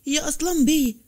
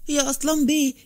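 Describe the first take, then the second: First: Calling again higher and more pressing; urgent repeated call to the master; more urgent eager call. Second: Calling out eagerly, raised pitch; urgent call for the master. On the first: Servant calling his master again, higher and more urgent. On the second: Servant rushing to wake his master, eager call. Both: A narrator's reading. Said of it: "وقال بلهفة".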